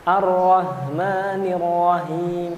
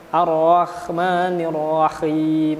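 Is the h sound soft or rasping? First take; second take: soft; rasping. First: The h sound is soft and weak. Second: The h sound is rasping like kh. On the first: "Kalau terlalu lemah, dia menjadi ha" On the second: "ada kha-khanya dikit"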